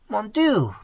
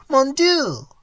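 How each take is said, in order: First: Higher, anguished call to God; despairing cry. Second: Much higher, louder anguished wail; rising despairing cry. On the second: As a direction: let the second cry break higher. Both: Acted. Old man's despairing cry.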